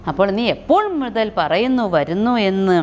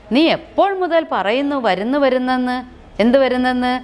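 First: Said in the usual way. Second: Put-on annoyed child. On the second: Chunni complains to Gopu.

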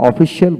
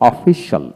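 First: অফিসিয়াল with a full "si-al" ending; common local pronunciation. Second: অফিসিয়াল shortened to three syllables, o-fi-shal; correct pronunciation. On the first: Teacher quoting how we usually say অফিসিয়াল, ending in "si-al". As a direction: say অফিসিয়াল in four syllables, o-fi-si-al. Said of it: "এখানে অফিসিয়াল বলি". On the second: Teacher showing the proper অফিসিয়াল, ending in one-syllable "shal". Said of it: "এখানে অফিসিয়াল উচ্চারণটা". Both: Shown as a demonstration.

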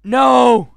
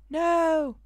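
First: High, loud cry of refusal; shouted no. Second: High NO at normal volume; high-voiced no. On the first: Acted. Reading the character's refusal, loud high shout. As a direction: shout NO forcefully. Character's line, first take. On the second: Redoing the character's refusal after apologising, high and unshouted. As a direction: say NO high, without shouting. Redoes line after saying sorry.

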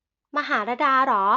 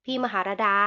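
First: Surprised echo, slower and louder. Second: Said in the usual way. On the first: A narrator's reading. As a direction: repeat his words in disbelief. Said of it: "บ่งบอกว่าเธอแปลกใจ". (ทวนคำอย่างแปลกใจ)

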